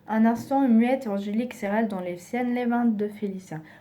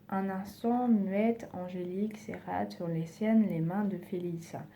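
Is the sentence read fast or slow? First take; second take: fast; slow. First: The sentence is read at a fast pace. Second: The sentence is read at a slow pace.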